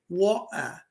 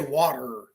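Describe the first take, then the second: First: It is said with an English accent. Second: It is said with an American accent.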